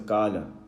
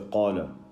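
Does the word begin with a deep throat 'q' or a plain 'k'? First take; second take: plain k; deep q. First: It begins with a plain front 'k' sound. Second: It begins with a deep back-of-throat 'q' sound. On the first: The speaker calls it wrong. "we change it into a kaf" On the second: The speaker calls it right.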